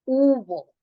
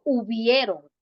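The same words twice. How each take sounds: First: Firm emphatic "Hubo"; correct form stressed. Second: "hubieron" stressed as the wrong form; "hubieron" said a bit louder as the mistake. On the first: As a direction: punch "Hubo" as the right word. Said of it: "no hubieron". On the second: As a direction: mark "hubieron" as the error. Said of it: "no se dice hubieron". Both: Shown as a demonstration.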